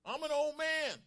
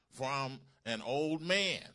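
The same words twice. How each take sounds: First: Very high, loud outburst; angry shout. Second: Slow, raised scripture reading; emphatic. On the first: Zacharias shouts back at the angel, angry. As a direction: shout it out in protest. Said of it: "he's angry and shouts out to the angel". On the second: Preacher reading Zacharias's reply to the angel, emphatic. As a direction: read it out slow and loud, with weight. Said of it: "the Greek in this verse was emphatic". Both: Acted.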